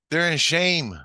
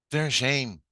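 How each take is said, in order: First: High, loud answer; emphatic pronouncement. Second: Raised but more contained restatement; firm repeat. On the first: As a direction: declare it forcefully from on high. Answers the agitated question firmly. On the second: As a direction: repeat it firmly, easing off. Repeats the answer more evenly. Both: Retold or imitated.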